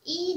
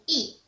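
First: The syllable has a high level tone. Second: The syllable has a falling tone. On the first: "I nada pertama" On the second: "nada i akan bertukar menjadi nada keempat, iaitu i"

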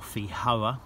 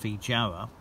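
First: The J is pronounced as a soft J. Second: The J is pronounced as a hard J.

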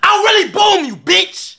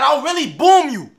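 First: It is said with more energy. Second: It is said with less energy.

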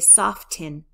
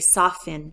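First: The T sound in the middle is pronounced. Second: The T sound in the middle is silent. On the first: The speaker calls it wrong. "I don't say soften" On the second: The speaker calls it right. "The T is gone in my pronunciation"

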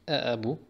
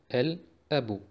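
First: The L of the article is left out. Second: The L of the article is clearly pronounced. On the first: The speaker calls it wrong. "Nicht E-Ebu" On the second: The speaker calls it right. "Also wir sagen El-Ebu"

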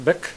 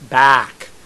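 First: The vowel is not an open ah sound. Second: The vowel is an open ah sound. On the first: The speaker calls it wrong. "not bick" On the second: The speaker calls it right. "no, back"

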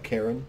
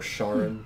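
First: The name begins with a hard K sound. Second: The name begins with a soft SH sound. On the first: "I always thought it was a hard C" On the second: "or however you want to pronounce it"

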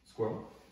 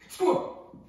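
First: It is said calmly at normal volume. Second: It is yelled quickly and excitedly.

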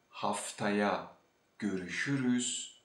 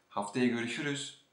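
First: The phrase is said at a normal speed. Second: The phrase is said quickly.

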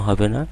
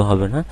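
The two takes are said the same way.

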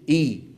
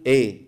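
First: The vowel after the hamza is a full, clear 'i'. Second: The vowel after the hamza sounds open, like 'e'. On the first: The speaker calls it right. "فلنحرص على كسر الهمزة كسرا كاملا، بل نقول إي" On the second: The speaker calls it wrong. "ما نقول إيه"

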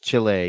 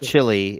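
First: It is pronounced like the country name. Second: It is pronounced like the food chili. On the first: This names the country. The speaker calls it right. "It's Chile. ... You visit Chile" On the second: This names the food. The speaker calls it wrong. "It's not Chile. ... You eat Chile"

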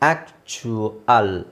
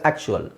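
First: The word is said slowly, syllable by syllable. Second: The word is said quickly, syllables run together.

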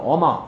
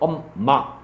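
First: The m sound is single and short. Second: The m sound is doubled and held long. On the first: This is how foreigners say it. The speaker calls it wrong. "걔들은 어마 이렇게 하고" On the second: This is how native Korean speakers say it. The speaker calls it right. "우리는 엄마 이렇게 하는데"

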